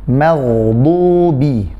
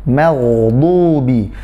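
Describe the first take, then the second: Both takes have the same delivery.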